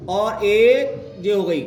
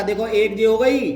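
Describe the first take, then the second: First: Slow, spelled-out repeat. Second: Said in the usual way. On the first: Shown as a demonstration.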